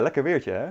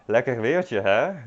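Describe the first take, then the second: First: It sounds sincere and pleased. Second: It sounds annoyed and exasperated. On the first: The weather really is nice. "you can like genuinely say" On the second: The weather is awful and annoying. "In a frustrated tone of voice"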